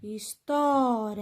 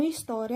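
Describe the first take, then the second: First: História slow, with TÓ held long; stress on TÓ. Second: Said in the usual way. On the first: Shown as a demonstration. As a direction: lean on the TÓ of História and stretch it. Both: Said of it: "é a sílaba tó".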